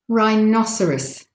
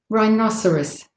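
Both takes have the same delivery.

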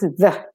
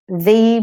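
First: The word is reduced, weak and unstressed. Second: The word is said fully, with a clear vowel.

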